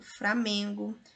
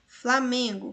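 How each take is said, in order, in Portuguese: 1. A segunda consoante é pronunciada como R. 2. A segunda consoante é pronunciada como L.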